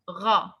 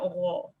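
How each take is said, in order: First: The vowel is said with unrounded lips. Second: The vowel is said with rounded lips. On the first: The speaker calls it right. "It's not rounded" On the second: The speaker calls it wrong. "it's not ra"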